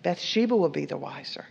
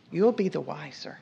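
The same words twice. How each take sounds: First: Voiceless whisper, soft and low. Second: Said in the usual way. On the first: Real, not acted. Preacher warning the congregation, whispered. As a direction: drop to a knowing whisper. Repeated line, now whispered.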